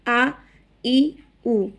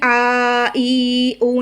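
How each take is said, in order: First: The vowels are short and plain. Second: The vowels are drawn out long. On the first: The speaker calls it right. "बल्कि बिल्कुल सादा पढ़ेंगे" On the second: The speaker calls it wrong. "इसको खींचेंगे नहीं, आ ई उ नहीं करेंगे बिल्कुल"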